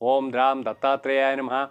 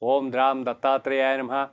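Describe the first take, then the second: Both takes have the same delivery.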